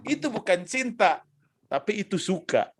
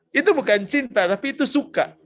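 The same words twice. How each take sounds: First: Said in the usual way. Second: Louder repeat. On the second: Shown as a demonstration. Preacher repeats the answer for the young crowd, louder. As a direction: say it again, louder and firmer.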